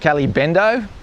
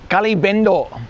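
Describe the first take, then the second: First: It is said with an Australian accent. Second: It is said with an Indonesian accent.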